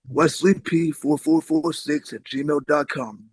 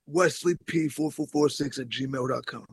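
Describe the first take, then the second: First: It is said more slowly. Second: It is said at normal speed.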